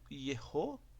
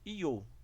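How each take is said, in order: First: It is said in full with two syllables. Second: It is contracted to a single syllable. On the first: "Temos então duas pronúncias" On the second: "que seria uma contração"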